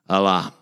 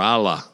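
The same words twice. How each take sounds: First: The name is pronounced the Arabic way. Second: The name is pronounced the English way.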